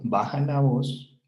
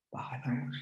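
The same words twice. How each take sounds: First: Said in the usual way. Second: Soft unvoiced whisper, much softer; whispered command. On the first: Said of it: "yo voy a bajar mi voz". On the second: Shown as a demonstration. Teacher models calming a child by whispering, soft whisper. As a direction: hush the child by whispering it yourself. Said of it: "yo voy a bajar mi voz y voy a hacer este".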